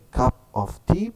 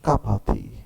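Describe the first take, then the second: First: Each word is said separately, with 'of' clear. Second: The words run together, with 'of' barely heard. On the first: "in writing we say cup of tea" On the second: "in conversation and speaking, we call it a cup of tea"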